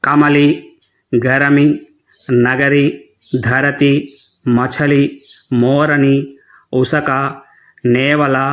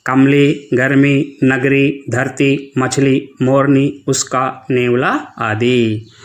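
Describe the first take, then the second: First: कमली said as kamali, every schwa voiced; mispronouncing like non-Hindi learners. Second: कमली said as kəmli, the middle schwa dropped; correct pronunciation. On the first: Teacher mimics non-Hindi children's wrong reading, full schwas. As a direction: imitate learners who read गर्मी as gərəmi. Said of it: "वे बच्चे कैसे पढ़ते हैं". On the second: Teacher gives the children the correct reading, schwa dropped. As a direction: read गर्मी and नगरी as gərmi and nəgri, no inner vowel. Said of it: "इसका सही उच्चारण क्या है". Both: Shown as a demonstration.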